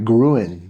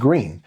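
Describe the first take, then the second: First: The vowel sounds like 'oo', following the spelling. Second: The vowel sounds like 'ee', as in green. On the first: This is the reading an outsider would guess. The speaker calls it wrong. "which you would think that the per- correct pronunciation is like gruen" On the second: This is how the locals say it. The speaker calls it right. "But no, they they're flat out no, it's green"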